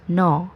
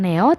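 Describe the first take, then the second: First: The vowel is said as a single o sound. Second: The vowel is said as two sounds, e-o. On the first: The speaker calls it right. "tapi melainkan no" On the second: The speaker calls it wrong. "Neo itu salah total"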